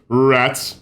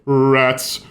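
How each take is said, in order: No difference in how they are said.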